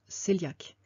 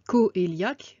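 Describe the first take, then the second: First: It begins with a single 'say' sound. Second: It begins with a separate 'ko-ay' sound. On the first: This is how the word is actually pronounced. The speaker calls it right. "mais en fait ça se prononce cœliaque" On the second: This is how the word is written. The speaker calls it wrong. "ça s'écrit coéliaque"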